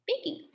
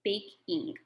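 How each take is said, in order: First: "baking" said much higher and softer; playful high echo of "baking"; high sing-song repeat. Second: Said in the usual way. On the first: Shown as a demonstration. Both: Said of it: "drop the E, baking".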